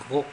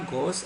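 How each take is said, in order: First: The final s is silent. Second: The final s is sounded. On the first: The speaker calls it right. "on dit gros. ces lettres ne se prononcent pas" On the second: The speaker calls it wrong. "On ne dit pas grosse"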